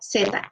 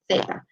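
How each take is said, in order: First: The first sound is an S sound. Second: The first sound is a TH sound. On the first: This is how it is said outside Spain. "all the other Spanish-speaking countries around the world pronounce it like S" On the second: This is how it is said in Spain. "in Spain ... they actually pronounce this one like a T H sound"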